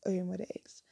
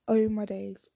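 First: Said in the usual way. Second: Loud shocked cry of disbelief; shocked exclamation. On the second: Retold or imitated. Retold shock reaction.

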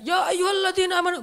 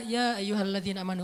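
First: Ya ayyuhalladzina amanu belted out high and loud; the wrong way to recite Ya ayyuhalladzina amanu, loud and high; wrong way, shouted. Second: Gentle recitation. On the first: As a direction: shout the call like a harsh order. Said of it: "Makanya bacanya jangan". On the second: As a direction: read it gently, like a tender call. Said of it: "Tapi kalau kita baca". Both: Shown as a demonstration.

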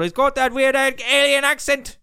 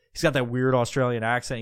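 First: High, loud, badly faked South African accent. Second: Said in the usual way. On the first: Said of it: "That's not very South African".

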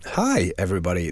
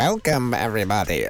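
First: Said in the usual way. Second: Cheesy DJ welcome, rising on welcome; eighties DJ voice. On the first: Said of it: "so I've turned that off". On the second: Retold or imitated. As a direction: hype it up like an old radio DJ. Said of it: "it sounded like an eighties D J".

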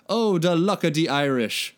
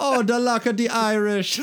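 First: A hint of an Irish lilt on the luck line; lightly put-on Irish accent, cheerful; read-aloud Irish accent. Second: Higher, louder mock Jamaican lilt, laughing through it; hammed-up Caribbean accent. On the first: A narrator's reading. Mike brightly wishing Raph luck in an Irish accent. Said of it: "said happily with a Celtic accent". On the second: Mike's Irish line redone in a laughing mock Jamaican accent. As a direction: overplay the accent as a joke, giggling. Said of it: "why is he Jamaican".

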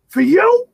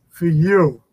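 First: High, loud incredulous "For you?" with a sharp rise; doubting it, voice jumping up high; questioning disbelief. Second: Proud. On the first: Dad backstage, doubting his son drew the crowd, incredulous. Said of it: "he went from questioning it". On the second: Dad peeking through the curtain at the sold-out crowd, proud. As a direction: let the doubt melt into pride. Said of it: "to being proud of it". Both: Retold or imitated.

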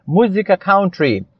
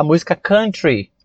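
First: "country" with an OW vowel, like "cown-tree"; "country" rhyming its first syllable with "down"; Brazilian-style pronunciation. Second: "country" with an UH vowel, like "kun-tree"; "country" with the first vowel of "cup"; English pronunciation. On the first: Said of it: "Aqui no Brasil nós temos essa cultura de falar". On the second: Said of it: "Porém, a pronúncia, dentro do nosso mundo de inglês". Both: Shown as a demonstration.

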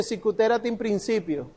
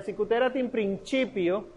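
First: PRINCIPIO said prin-SI-pio. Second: PRINCIPIO said prin-CHI-pio. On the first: Teacher showing students what not to say, principio with an s sound. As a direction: give principio a soft s for its c. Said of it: "No se dice". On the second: Teacher showing students the correct Latin, principio with a ch sound. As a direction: give principio an Italian ch for its c. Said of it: "Entonces sería". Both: Shown as a demonstration.

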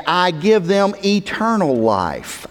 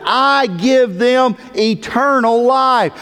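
First: Said in the usual way. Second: "I give them eternal life" slow and high, each word stretched; emphatic. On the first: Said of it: "how emphatic Jesus is". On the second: Retold or imitated. Preacher quoting Jesus on eternal life, emphatic. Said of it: "how emphatic Jesus is about this point".

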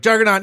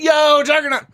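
First: Said in the usual way. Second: High, hyped-up shout of the name; excited. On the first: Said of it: "If you're excited and it's like". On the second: Shown as a demonstration. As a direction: greet the name like a fan. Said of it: "you're like".

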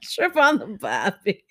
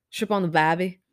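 First: Slow, exaggerated Australian accent with a laugh. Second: Laughing attempt at an Australian accent. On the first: Retries her Australian accent for a friend, slow and hammed-up. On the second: Asked for her Australian accent, tries it with a laugh. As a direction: try a half-hearted Australian accent, amused. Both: Shown as a demonstration. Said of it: "what's your Australian accent sound like?".

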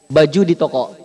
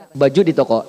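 The two takes are said the same way.

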